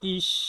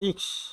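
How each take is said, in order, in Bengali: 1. শব্দটি সাধারণ s ধ্বনিতে শেষ হয়। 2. শব্দটি দ্রুত k-sh ধ্বনিতে শেষ হয়। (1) "এটা ডয়েচে হচ্ছে ইস" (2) "সঠিক উচ্চারণটা হচ্ছে ইক্স"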